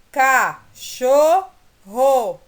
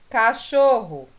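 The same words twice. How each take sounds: First: "Cachorro" drawn out as "ca-chor-ro", slow and loud; syllables split slowly. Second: Said in the usual way. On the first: Shown as a demonstration. Teacher slowly splitting "Cachorro" into syllables for the class. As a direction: pull apart "Cachorro" beat by beat. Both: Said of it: "Separando as sílabas agora".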